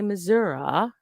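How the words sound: It is said with a southern Missourian pronunciation. "they may be the ones that say Missouri"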